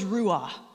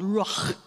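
First: The word ends without a throaty guttural sound. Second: The word ends with a throaty guttural sound.

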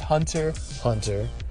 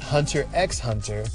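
First: Nothing is spoken between the two words. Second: A word is spoken between the two words. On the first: The speaker calls it right. "it's pronounced" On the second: The speaker calls it wrong.

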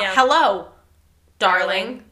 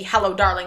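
First: There is a clear pause after 'Hello'. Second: The words run together without a pause. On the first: The speaker calls it wrong. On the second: The speaker calls it right. "the ship's name should be"

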